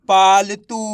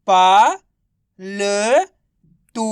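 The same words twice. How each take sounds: First: पालतू run together, firm and louder; blended word. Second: Long pauses between पा, ल and तू; syllable by syllable. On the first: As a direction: say पालतू as one joined word. (पालतू को मिलाकर एक शब्द में) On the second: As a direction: sound out पा, ल, तू separately. (पा, ल, तू को अलग-अलग खींचकर) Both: Shown as a demonstration. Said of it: "तो मिलके बन जाएगा".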